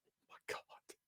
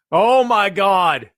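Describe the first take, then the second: First: Stunned breathless whisper; hushed disbelief. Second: Drawn-out, very slow loud shout; booming slow disbelief. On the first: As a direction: whisper it in awe. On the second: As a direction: stretch it out and yell in amazement. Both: Pretend. Awed reaction to a promo.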